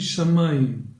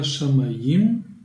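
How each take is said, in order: First: The stress is on the second-to-last syllable. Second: The stress is on the last syllable. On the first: The speaker calls it right. "on le prononce donc sur l'avant-dernière syllabe" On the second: The speaker calls it wrong. "On ne dit pas"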